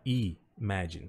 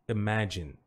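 First: A final vowel sound is pronounced after the n. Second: The word ends on the n with no vowel. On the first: The speaker calls it wrong. "Então não é imagine" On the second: The speaker calls it right. "Não pronuncie esse e"

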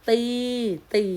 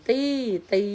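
No difference in how they are said.

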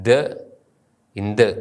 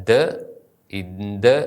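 No difference in how they are said.

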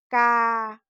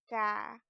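First: The syllable is said on a level mid tone. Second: The syllable is said on a low tone. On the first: "Середній тон" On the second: "низький тон"

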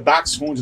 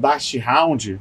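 First: The ending is said like German 'hund'. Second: The ending is said like English 'hound'. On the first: The speaker calls it right. "Eu explico que é Dachshund" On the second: The speaker calls it wrong. "não Dachshund"

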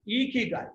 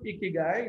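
First: The final syllable sounds like 'guy'. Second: The final syllable does not sound like 'guy'. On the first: The speaker calls it right. "it's Ikigai. That's what it is" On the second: The speaker calls it wrong. "It's not Ikigai"

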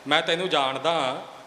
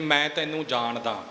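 First: It is said in a challenging, defiant tone. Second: It is said as a plain, matter-of-fact statement. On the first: The speaker dares the other, knowing their true worth. "ਇਹ ਇੱਕ ਵੰਗਾਰ ਬਣ ਗਈ" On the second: The speaker simply knows the other person. "ਇਹ ਅਰਥ ਆਪਾਂ ਸਾਰੇ ਸਮਝ ਸਕਦੇ ਹਾਂ"

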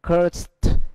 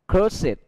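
First: The ending adds no extra syllable. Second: The ending is a separate extra syllable. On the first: It is the verb form. "khi nó là động từ" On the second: It is the adjective form. "khi nó là tính từ"

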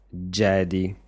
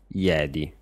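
First: The word begins with a 'j' sound. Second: The word begins with a 'y' sound. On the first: This is how people in Italy actually say it. "dicano Jedi con la J" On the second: This is how people in Italy do not say it. "e non Jedi"

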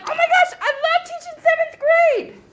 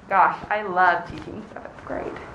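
First: It is said in an enthusiastic way. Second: It is said in an unenthusiastic way.

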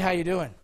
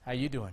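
First: The greeting sounds plain and casually friendly. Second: The greeting sounds suggestive and openly flirtatious. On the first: It is an ordinary greeting. "I can say, hey, how you doing?" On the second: The speaker is coming on to someone. "Same words, different way of saying it"

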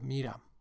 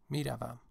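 First: The verb is said in a shortened form. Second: The verb is said in its full form. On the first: This is the informal register. "the informal version or register" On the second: This is the formal register. "میروم is formal"

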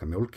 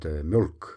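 First: The word is pronounced softly. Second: The word is pronounced hard. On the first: The speaker is from Reykjavík. "sounds like mjölk in Reykjavík" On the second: The speaker is from Akureyri. "but mjölk in Akureyri"

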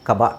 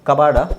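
First: No r sound is heard in the second syllable. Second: An r sound is heard in the second syllable. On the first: The speaker calls it right. "ಇದರ ಸರಿಯಾದ ಉಚ್ಚಾರಣೆ ಬಂದು ಕಬಾ" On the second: The speaker calls it wrong. "ಅಲ್ಲ"

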